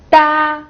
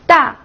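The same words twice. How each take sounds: First: The pitch stays high and level. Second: The pitch falls sharply from high to low.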